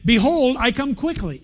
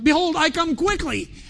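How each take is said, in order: First: It is said calmly, with ordinary energy. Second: It is said with the most force and energy.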